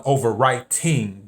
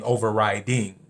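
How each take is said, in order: First: "overwriting" slowly, with a clear T in writing; distinct T. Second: "overriding" with a clear D in riding; distinct D. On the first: Clarifying what was reported, "overwriting" with a crisp T. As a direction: separate "overwriting" so the T is heard. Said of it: "but I believe she was saying overriding". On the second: Correcting the reported word, "overriding" with a clear D. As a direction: separate "overriding" so the D is heard. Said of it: "I believe she was saying overriding". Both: Shown as a demonstration.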